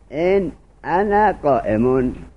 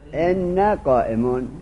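First: The hamza is pronounced; the two n sounds stay separate. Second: The hamza is dropped; the n sounds merge into one.

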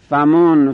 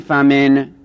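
First: The f is followed by a u vowel. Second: The f is followed by an i vowel. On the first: "به ضم فا" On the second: "به کسر فا"

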